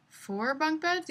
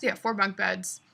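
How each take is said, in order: First: Unsure question. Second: Said in the usual way. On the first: Real, not acted.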